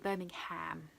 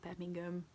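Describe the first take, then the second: First: It is said in an American accent. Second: It is said in a Brummie accent.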